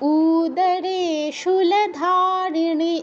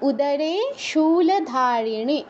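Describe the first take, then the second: First: The first vowel 'u' is drawn out long. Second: The first vowel 'u' is short and quick. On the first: The speaker calls it wrong. "এরকম বলবো না, উতে দীর্ঘ করা যাবে না" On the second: The speaker calls it right. "উ দ্রুত বলে"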